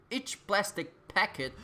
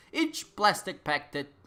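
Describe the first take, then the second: No difference in how they are said.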